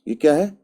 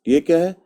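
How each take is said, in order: No difference in how they are said.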